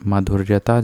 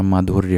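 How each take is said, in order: First: माधुर्यता with an added final "taa"; wrong form. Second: माधुर्य ending at "rya"; correct form. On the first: Teacher rejecting a non-word, माधुर्यता with extra "taa". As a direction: tack "taa" onto the end of माधुर्यता. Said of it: "जैसा कोई शब्द नहीं होता". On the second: Teacher correcting students, माधुर्य without the suffix. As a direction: stop माधुर्य with no "taa" after it. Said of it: "माधुर्य होता है बस". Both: Shown as a demonstration.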